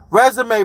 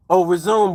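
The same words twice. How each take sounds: First: Resume said as rez-uh-may; resume with stress on the end, may; wrong pronunciation. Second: Resume said as ri-zoom; resume said like the verb, ri-zoom; corrected pronunciation. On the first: Viewer asking about applying for a job, he says resume as rez-uh-may. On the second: Catching his own slip on the job word, resume said as ri-zoom. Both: Shown as a demonstration. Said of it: "No, that's resume".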